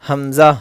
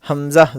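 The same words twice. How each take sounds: The two takes are said the same way.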